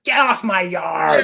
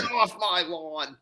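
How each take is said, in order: First: Put-on slow old man yell; shouting at trespasser. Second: Shouting at trespasser. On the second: Pretend. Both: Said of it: "old man rant".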